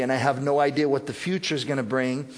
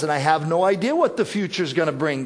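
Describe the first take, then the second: First: Calm, trusting. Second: Frustrated complaint. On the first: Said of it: "this is our attitude". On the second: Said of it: "Sometimes our attitude is". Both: Retold or imitated.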